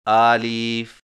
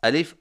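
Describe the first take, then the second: First: The first vowel is stretched out long. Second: The first vowel is said short, not stretched. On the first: The speaker calls it wrong. "इनको खींचकर आलिफ, हमज़ा ना पढ़ें" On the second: The speaker calls it right. "बगैर खींचे पढ़ें"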